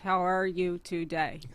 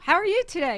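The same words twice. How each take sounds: First: It is said in a flat monotone. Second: It is said with lively, varied pitch. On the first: The speaker conveys no feeling. The speaker calls it wrong. "You can't emote when you're talking" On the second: The speaker conveys feeling. The speaker calls it right. "I had to learn like acting classes, how to like say"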